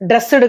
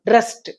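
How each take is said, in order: First: The word ends with a voiced d sound. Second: The word ends with a voiceless t sound. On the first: The speaker calls it wrong. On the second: The speaker calls it right.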